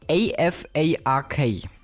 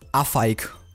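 First: The acronym is pronounced with English sounds. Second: The acronym is pronounced with German sounds. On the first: "Ich entschuldige mich jetzt schon mal für meine englische Aussprache" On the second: "wenn man es auf Deutsch ausspricht"

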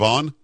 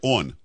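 First: It is said with a standard accent. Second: It is said with a Baltimore accent.

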